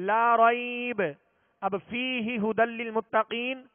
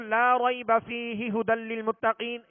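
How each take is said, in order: First: There is a pause after la raib only. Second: There is no pause anywhere in the phrase. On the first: The speaker calls it right. "पहले पर ठहरें ला रईब" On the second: The speaker calls it wrong. "यूं पढ़ना दुरुस्त नहीं है"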